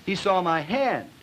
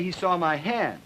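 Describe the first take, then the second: First: Slow, drawn-out and higher, hand stretched long; heavy drawl. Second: Drawn out lightly on hand; plus drawl. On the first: Lecturer demonstrating double plus drawl to students, slow and drawn out. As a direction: drag every word out slowly. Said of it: "double plus drawl". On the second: Lecturer demonstrating a mild drawl to the class, slightly drawn out. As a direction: stretch the vowels a little. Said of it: "plus drawl". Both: Shown as a demonstration.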